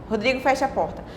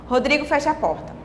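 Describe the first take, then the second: No difference in how they are said.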